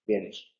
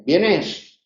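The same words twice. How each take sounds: First: "vienes." said as a statement, lower and softer, falling at the end; a classroom demo of "vienes." as a statement; statement intonation. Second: A classroom demo of "¿Vienes?" as a question; question intonation. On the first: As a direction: state "vienes." as a plain fact. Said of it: "y luego el enunciativo". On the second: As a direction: ask "¿Vienes?" as a yes-no question. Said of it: "el interrogativo". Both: Shown as a demonstration.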